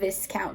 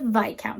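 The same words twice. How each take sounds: First: It is pronounced exactly as it is spelled. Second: It is pronounced differently from its spelling. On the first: The speaker calls it wrong. "I was saying viscount because that's how it's spelled" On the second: The speaker calls it right. "it is a viscount"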